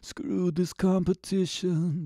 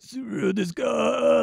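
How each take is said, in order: First: It is said with a little grit. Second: It is said with a lot of grit.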